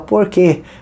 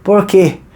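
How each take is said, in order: The two takes are said the same way.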